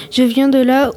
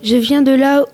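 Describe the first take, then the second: No difference in how they are said.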